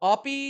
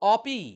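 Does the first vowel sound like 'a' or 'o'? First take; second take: a; a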